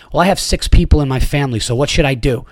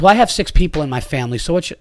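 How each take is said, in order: First: Fast, louder mock snotty mom; snotty attitude. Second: Fast, a bit louder mock entitled mom; snotty attitude. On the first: Mother snaps at the dad over a seat, snotty. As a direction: sneer it like an entitled parent. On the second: Comic retells the mother's snippy reply, snotty. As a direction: toss it off with a sneer. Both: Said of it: "out loud with an attitude voice".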